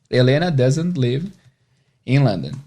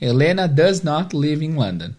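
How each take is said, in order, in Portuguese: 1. A negativa é contraída em uma palavra só. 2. A negativa é falada por extenso, como duas palavras.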